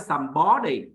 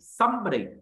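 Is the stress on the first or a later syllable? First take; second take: later; first. First: The stress is not on the first syllable. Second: The stress is on the first syllable. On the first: The speaker calls it wrong. "Không phải là somebody" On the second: The speaker calls it right. "Mà nhấn âm đầu tiên"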